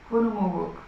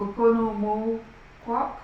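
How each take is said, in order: First: Okonomowak said with a falling, decided ending; settled pronunciation. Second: Okonomowak slowly sounded out, rising like a question; tentative pronunciation. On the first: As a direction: land Okonomowak as a final answer. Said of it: "I'm gonna go with that". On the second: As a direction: venture Okonomowak slowly, unsure at the end. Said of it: "I'm gonna go for it". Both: Shown as a demonstration.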